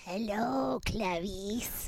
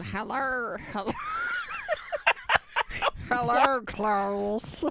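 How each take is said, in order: First: Soft, whispered Hello, Clarice; whispered mock Hannibal greeting; Hannibal Lecter impression. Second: Half-laughing mock Muppet Hannibal; Hannibal Meatwad. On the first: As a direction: breathe it like a creepy killer. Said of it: "what is that voice?". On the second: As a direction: say it like a goofy Muppet villain. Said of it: "Hannibal Meatwad?".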